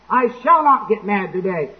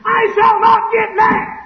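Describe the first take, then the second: First: Controlled resolve. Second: Slow, high-pitched full scream; hollering scream. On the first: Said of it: "And then he finally hollers and screams". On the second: Man with a temper finally snaps, hollering and screaming. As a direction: lose control and scream every word. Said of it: "he finally hollers and screams". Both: Acted.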